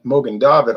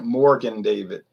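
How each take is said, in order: First: The first word is said without an R sound. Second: The first word is said with an R sound. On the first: The speaker calls it right. "There's no R in Morgan in Mogan David" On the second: The speaker calls it wrong. "I hear them pronouncing it Morgan David"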